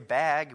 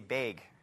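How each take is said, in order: First: It is said with a standard pronunciation. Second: It is said with a strong regional pronunciation. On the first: This is how outsiders say it. "We don't say bag" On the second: This is how locals say it. "we say bag"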